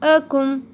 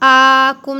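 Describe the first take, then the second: First: The first vowel is short. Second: The first vowel is long. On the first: The speaker calls it right. "हमज़ा के ऊपर ज़बर है" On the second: The speaker calls it wrong. "आकुम नहीं बोलेंगे"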